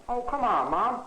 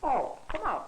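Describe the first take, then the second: First: Louder pleading protest, stress on come; louder whiny plea. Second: Said in the usual way. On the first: Acted. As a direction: push the plea harder. Son pleads again louder.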